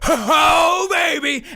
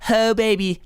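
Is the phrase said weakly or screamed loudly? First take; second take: screamed; weakly. First: It is screamed loudly with energy. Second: It is said weakly and quietly. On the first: The speaker calls it right. "you're gonna scream it" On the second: The speaker calls it wrong. "not that weak crap"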